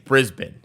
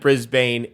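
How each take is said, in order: First: The name is said the way locals say it. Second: The name is said just as it is spelled. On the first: The speaker calls it right. "It's Brisbane" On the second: The speaker calls it wrong. "I pronounce it Brisbane"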